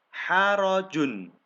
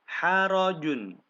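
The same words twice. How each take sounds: The two takes are said the same way.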